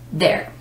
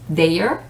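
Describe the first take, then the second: First: It has no extra vowel before the r. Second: An extra vowel sound is heard before the r. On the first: The speaker calls it right. "the correct is there" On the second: The speaker calls it wrong. "sometimes people would read it as there, which is a honest mistake"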